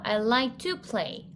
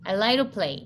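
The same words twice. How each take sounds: First: The word 'to' is said fully and slowly. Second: The word 'to' is reduced and said quickly.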